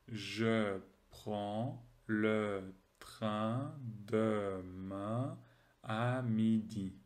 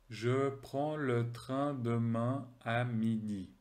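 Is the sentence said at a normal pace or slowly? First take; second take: slowly; normal. First: The sentence is said more slowly. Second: The sentence is said at normal speed.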